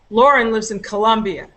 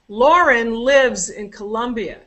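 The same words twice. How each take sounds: First: Lauren and Colombia are higher, longer and louder. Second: Lives is higher, longer and louder than the rest. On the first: "Lauren and Colombia" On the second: "Lives is long"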